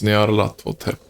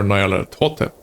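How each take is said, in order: First: "Nyarlathotep" opening on a quick NYAR, one syllable; first pronunciation. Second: "Nyarlathotep" opening NYE-ar, in two syllables; alternative pronunciation. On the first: Player trying one way to pronounce that name, "Nyarlathotep" said NYAR-la-thotep. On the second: Player offering another way to pronounce that name, "Nyarlathotep" said NYE-ar-la-totep. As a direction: say "Nyarlathotep" as nye-AR-la-TOE-tep. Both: Shown as a demonstration. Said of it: "different ways to pronounce that name".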